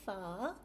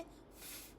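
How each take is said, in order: First: The consonant is followed by a short vowel. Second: The consonant is said alone without a vowel. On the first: The speaker calls it wrong. "You'll not say fa" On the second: The speaker calls it right. "You'll simply say f"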